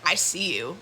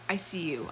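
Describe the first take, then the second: First: The voice sounds threatening and menacing. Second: The voice sounds calm, soft and knowing. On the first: The person is making a threat. "not in a way where she's like" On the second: The person truly sees and understands someone. "it was like"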